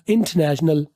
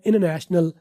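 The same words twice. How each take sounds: First: It is said in a British accent. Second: It is said in an American accent.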